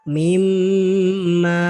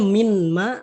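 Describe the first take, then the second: First: The n merges into a long nasalized m. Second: The n is pronounced separately before the m. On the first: "seolah-olah nunnya tidak ada ... dengan adanya dengung" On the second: "Jadi nun matinya dari mim langsung harusnya min ma"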